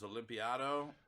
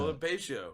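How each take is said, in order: First: The name has an extra 'i' before 'ado'. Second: The name ends in a 't' and 'io' sound. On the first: "for the first year knowing you, it was Olympiado" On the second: "I pronounced your name as Olimpatio"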